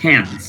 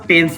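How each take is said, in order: First: The t is crisp and alveolar, English-style. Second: The t is soft and dental, Bengali-style. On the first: The speaker calls it right. "এটা টেন্স" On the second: The speaker calls it wrong. "এটা কিন্তু টেন্স না"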